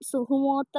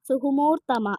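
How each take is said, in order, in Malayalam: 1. വാക്ക് ചെറിയ 'othra' ശബ്ദത്തിലാണ് അവസാനിക്കുന്നത്. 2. വാക്ക് നീണ്ട 'oorthama' ശബ്ദത്തിലാണ് അവസാനിക്കുന്നത്. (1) "സുഹുമോത്ര എന്നാണ് ഞങ്ങൾ പറയുന്നത്" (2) "എന്നാണ് അതിൻ്റെ ഒറിജിനൽ"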